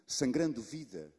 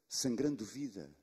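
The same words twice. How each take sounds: The two takes are said the same way.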